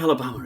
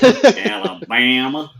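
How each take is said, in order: First: It is said in a plain English accent. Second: It is said in a Southern American accent.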